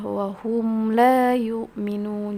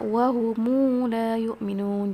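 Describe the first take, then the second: First: The m closes the word with no added vowel. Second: The m is linked with an added u vowel.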